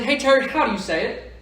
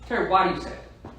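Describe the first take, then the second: First: "how" lifted high with a rising end, as the wrong question; stress on how. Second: "why" pressed and falling, as the right question; stress on why. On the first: Coach showing the wrong question to ask, stress on "how". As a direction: ask "how do you say it" the way you shouldn't. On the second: Coach showing the right question to ask, stress on "why". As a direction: lean on "why" and let it land. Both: Shown as a demonstration. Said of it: "Don't say".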